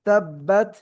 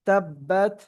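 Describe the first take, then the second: No difference in how they are said.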